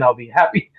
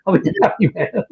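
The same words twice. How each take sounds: First: Said in the usual way. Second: Said through a laugh, higher; chuckling repeat of the line. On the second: Real, not acted.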